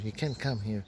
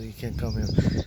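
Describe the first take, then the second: First: Said in the usual way. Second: Louder, firm, flat command; firm loud warning. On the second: Retold or imitated. Priestess blocking the speaker's way, firm loud warning. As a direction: stop him hard at the line. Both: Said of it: "Uh, not like that".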